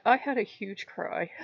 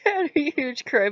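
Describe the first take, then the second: First: Said in the usual way. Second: Laughing at herself, higher and louder. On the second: Real, not acted. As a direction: say it through a laugh, lightly embarrassed.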